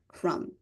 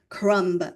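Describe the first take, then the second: First: The final B sound is silent. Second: The final B sound is pronounced. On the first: The speaker calls it right. "the word crumb has a silent B. We say crumb" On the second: The speaker calls it wrong. "We don't say crumb"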